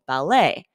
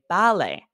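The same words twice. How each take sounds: First: The stress is on the second syllable. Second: The stress is on the first syllable. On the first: This is the American pronunciation. "In the U S, we emphasize the second syllable" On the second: This is the British pronunciation. "in British English, they emphasize the first syllable"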